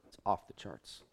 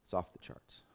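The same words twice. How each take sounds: First: Said in the usual way. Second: "It's off the charts." repeated as a soft whisper. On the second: Real, not acted. Preacher repeating the cost to his group, whispered. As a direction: breathe "It's off the charts." in awe, unvoiced.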